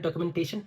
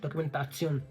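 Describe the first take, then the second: First: The word ends with a 'shun' sound. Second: The word ends with a 'tsion' sound. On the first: "ये तो है डॉक्यूमेंटेशन" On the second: "थोड़ा सा प्रोनाउंसिएशन change हो रहा है"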